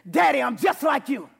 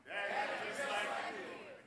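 First: Loud, high declaration; call and response shout. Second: Much softer, hushed repeat; soft echo. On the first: Pastor leading congregation, loud declaration. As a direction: lead the church in the shout. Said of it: "Can you do that with me? Say". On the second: Pastor echoing the declaration, softly. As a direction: let it fall to a hush. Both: Shown as a demonstration.

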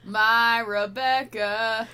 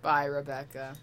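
First: Very slow, drawn-out mock melodrama; milk the name for laughs; hammed-up drawl. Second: Said in the usual way. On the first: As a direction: stretch each word out theatrically. Hams up the line just read.

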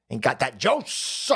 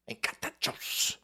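First: Said in the usual way. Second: Slow, voiceless whisper. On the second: Acted. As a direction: whisper it like an echoed catchphrase. Catchphrase repeated in a whisper.

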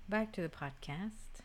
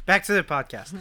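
First: Slow and deliberate. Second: Louder, with a falling tone; loud echo. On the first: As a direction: drag it out slowly. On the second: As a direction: echo it back loudly. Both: Real, not acted.

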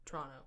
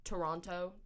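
First: "Toronto" squashed to Tronno; unenunciated local pronunciation. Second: "Toronto" with every syllable and both t's; enunciated. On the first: Guest compares versions, "Toronto" run together as Tronno. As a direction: swallow the first vowel and second t of "Toronto". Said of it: "don't like to enunciate your vowels". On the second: Guest compares versions, "Toronto" fully enunciated. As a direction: sound out "Toronto" fully as To-ron-to. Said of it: "I like to enunciate the word". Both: Shown as a demonstration.

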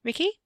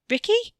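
First: High rising question, unsure; uncertain call. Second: Loud, very high rising call; worried shout. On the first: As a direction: call out, puzzled he's gone. Katie looks for missing cousin. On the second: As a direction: call out for him, now alarmed. Katie calls for missing cousin again. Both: A narrator's reading.

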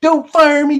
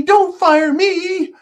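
First: High, loud whine on "Don't fire me"; whiny plea. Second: "don't fire me" stretched out slowly, very high; drawn-out whiny plea. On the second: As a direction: beg slower and higher, wailing. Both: Pretend. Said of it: "Can you imagine it?".

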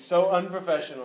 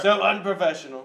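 First: Lightly voiced Trump scolding; a hint of Trump disdain; Trump impression. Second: A bit louder Trump scolding; Trump impression. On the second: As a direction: Trump disdain, pushed harder. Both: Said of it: "President Trump here".

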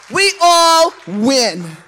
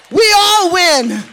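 First: Slow emphatic repeat. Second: Triumphant shout. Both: Real, not acted. Preacher repeats climax.

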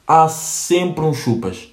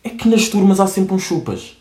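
First: "Há sempre uns chupas" said slowly, each word weighed; slow emphatic repeat. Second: Said in the usual way. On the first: Shown as a demonstration. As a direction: drag out "Há sempre uns chupas" to hammer it home. (repetição lenta e enfática de "Há sempre uns chupas")

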